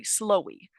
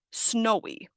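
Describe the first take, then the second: First: "slowy", an L in place of the N of snowy; student mispronunciation. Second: Said in the usual way. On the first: Retold or imitated. Teacher imitating a student's slip in weather words, "slowy" with L for N. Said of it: "mispronouncing it as". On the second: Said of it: "I was teaching the word snowy".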